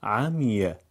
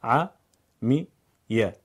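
First: Said in the usual way. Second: "عمیه" split very slowly, a-mi-ye; syllable by syllable. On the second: Shown as a demonstration. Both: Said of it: "هجا هجا بخونید".

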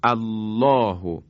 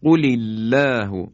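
First: الله started alone with the hamza sounded, slow and drawn out; slow recited الله as a fresh start; Quranic recitation. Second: Slow, loud recited قل الله with the hamza of الله dropped in linking; slow measured tajwid reading of قل الله; Quranic recitation. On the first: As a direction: begin on الله with a clear a-sound. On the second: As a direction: recite قل الله slowly, joining qul into illah. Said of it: "الف الله اینجا همزهٔ وصل بود". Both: Shown as a demonstration.

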